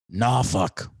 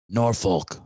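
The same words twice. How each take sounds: First: Norfolk is said the way locals say it. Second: Norfolk is said the way outsiders say it. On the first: This is how people from there say it. The speaker calls it right. "they pronounce it Norfolk when you're there" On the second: This is how people not from there say it. The speaker calls it wrong. "as people will say when they're not from there"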